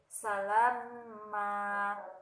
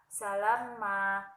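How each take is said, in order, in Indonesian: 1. Vokalnya dipanjangkan dua ketukan. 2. Vokalnya pendek, tidak dipanjangkan.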